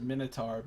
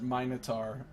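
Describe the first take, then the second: First: It is said with an American pronunciation. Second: It is said with a British pronunciation. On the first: "Normally in America you'd pronounce it" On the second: "the British people pronounce it"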